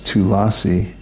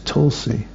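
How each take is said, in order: First: The name is stretched to three syllables. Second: The name is said in two syllables. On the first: The name is stretched out. The speaker calls it wrong. "I haven't seen it as Tulasi" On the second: This is the written form of the name. The speaker calls it right. "I've only seen it as Tulsi"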